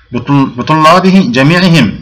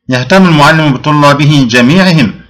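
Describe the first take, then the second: First: Slow, stressed. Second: Said in the usual way. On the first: Shown as a demonstration. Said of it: "باء حرف جر". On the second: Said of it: "أو مثال آخر".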